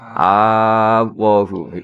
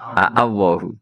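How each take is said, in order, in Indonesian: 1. Di awal menyatu menjadi satu vokal panjang. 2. Di awal terdengar dua hamzah. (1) "Kemudian diidgham kan jadi apa?" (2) "hamzah satu miliknya Allah, kemudian hamzah istifham"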